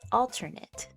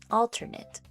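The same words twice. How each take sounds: First: The last syllable sounds like 'it'. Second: The same.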